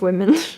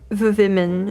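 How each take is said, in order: First: The word begins with a W sound. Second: The word begins with a V sound. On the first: "instead of women" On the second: "the double V instead of a W"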